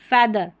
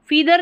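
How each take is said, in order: First: The first vowel is an 'e' sound. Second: The first vowel is a long 'ee' sound. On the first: The speaker calls it right. "ए करके होगा" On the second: The speaker calls it wrong. "फीदर नहीं"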